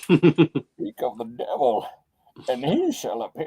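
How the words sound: It is said in a muffled, British Bane voice.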